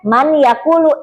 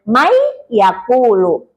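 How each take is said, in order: First: The first word ends with a clear n sound. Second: The n merges into the following y sound. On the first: This is how it is written. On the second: This is how it is read aloud. "tapi dibacanya"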